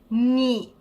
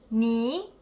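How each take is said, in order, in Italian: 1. Il tono resta basso. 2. Il tono sale. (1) "il tono del primo carattere si trasforma nel secondo tono" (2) "Questo è il secondo tono"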